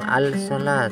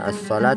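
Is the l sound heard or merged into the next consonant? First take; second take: heard; merged. First: The l is pronounced before the s sound. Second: The l merges into the following s sound. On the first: The speaker calls it wrong. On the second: The speaker calls it right.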